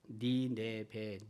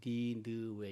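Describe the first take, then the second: First: The name is said as ni-ne-be. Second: The name is said as ni-neu-we. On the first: "니네베로 읽을 수도 있고" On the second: "니느웨라고 어, 읽을 수도 있습니다"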